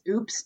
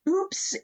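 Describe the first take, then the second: First: The word is said plainly, without emphasis. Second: The word is said with strong emphasis.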